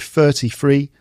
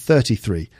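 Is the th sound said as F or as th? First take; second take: F; th. First: The th sound is replaced by an F. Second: The th sound is kept as th. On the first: "so 33 rather than" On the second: "rather than 33"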